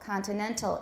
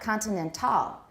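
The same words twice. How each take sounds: First: The stress falls on the second-to-last syllable. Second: The stress falls on the final syllable. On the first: The speaker calls it right. "it's the penultimate syllable" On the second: The speaker calls it wrong. "It's not continental. That sounds French"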